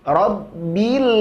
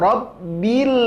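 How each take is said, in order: No difference in how they are said.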